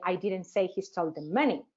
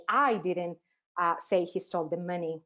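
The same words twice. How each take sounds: First: Even run-up, then land on "money"; stress on MONEY. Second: Teacher showing changed meaning, stress on "I". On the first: Teacher asks students if meaning changes, stressing "money". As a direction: save the stress for "money" at the end. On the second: Teacher asks students if meaning changes, leaning on "I". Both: Shown as a demonstration. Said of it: "if I change the stress".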